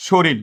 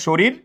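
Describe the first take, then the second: First: শরীর said as "shoril", final l; variant pronunciation. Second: শরীর ending in an r sound; standard pronunciation. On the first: Teacher showing students a variant, শরীর said as "shoril". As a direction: swap the last r of শরীর for l. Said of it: "কেউ বলে". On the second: Teacher showing students one pronunciation, শরীর with final r. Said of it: "শুধু আওয়াজের পরিবর্তন হয়েছে". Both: Shown as a demonstration.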